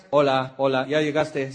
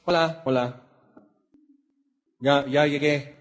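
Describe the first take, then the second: First: Welcoming greeting. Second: Droning flat hello, no interest; mock indifferent arrival; flat bored greeting. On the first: Retold or imitated. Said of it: "¿te gustaría que los que te esperan en la rampa te dijeran". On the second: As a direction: mumble it like you're done for the day. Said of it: "O así muy".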